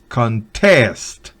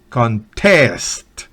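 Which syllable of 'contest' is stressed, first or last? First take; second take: last; last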